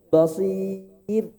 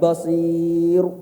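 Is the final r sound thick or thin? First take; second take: thin; thick. First: The final r is light, said with spread lips. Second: The final r is heavy, said with full mouth. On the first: The speaker calls it right. "Endingnya tuh tipis tuh agak senyum" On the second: The speaker calls it wrong. "Bukan kalau tebal kayak gini"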